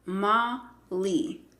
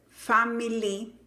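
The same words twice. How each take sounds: First: FAMILY slowly in pieces, "fa... ma... li"; pronunciación correcta. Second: FAMILY as "fa-mi-li", i in the middle; pronunciación incorrecta. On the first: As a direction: split FAMILY with schwa in the middle. (FAMILY por sílabas: "fa... ma... li", lento) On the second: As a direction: mispronounce FAMILY with a clear middle "mi". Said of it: "la palabra familia no es family". (FAMILY mal dicho: "fá-mi-li") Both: Shown as a demonstration.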